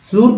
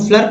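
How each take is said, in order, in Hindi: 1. इसमें स्वर एक लंबी 'oo' ध्वनि है। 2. इसमें स्वर एक छोटी 'uh' ध्वनि है। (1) "गलत" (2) "गलत"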